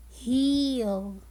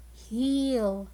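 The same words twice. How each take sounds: First: \"heel\" said clearly with a long E; modelled word heel. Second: \"Heel\" echoed plainly, long E; repeated model word heel. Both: Shown as a demonstration. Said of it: "The word heel has the long E sound".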